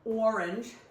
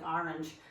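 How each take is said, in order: First: The first vowel sounds like 'or'. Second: The first vowel sounds like 'ar'. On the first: It is how Californians say it. "as my kids say, since they live in California" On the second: It is how New Englanders say it. "my upbringing in New England, ... we say R, A R E, like orange"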